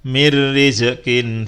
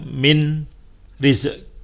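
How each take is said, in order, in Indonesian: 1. Bunyi n melebur ke r tanpa dengung. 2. Bunyi n dibaca terpisah sebelum r. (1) "tapi dibaca" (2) "bukan dibaca"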